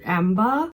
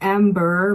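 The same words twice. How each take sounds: First: The R is dropped, giving an open ah sound. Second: The R after the first vowel is clearly pronounced. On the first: "I think I might be butchering this one, but amber" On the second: "Americans say like R, amber"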